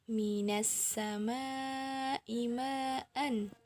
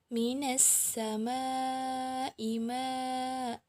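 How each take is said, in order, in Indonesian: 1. Frasa ini berakhir dengan bunyi n. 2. Frasa ini berakhir dengan vokal panjang. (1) "ketika washol tidak berhenti" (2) "ketika dia berhenti, maka menjadi mad iwad"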